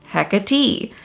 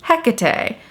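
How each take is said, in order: First: "Hecate" as HEK-uh-tee, first syllable stressed; HEK-uh-tee pronunciation. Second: "Hecate" as HEK-uh-tay, first syllable stressed; HEK-uh-tay pronunciation. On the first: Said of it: "It's pronounced". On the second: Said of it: "it's pronounced". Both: Retold or imitated.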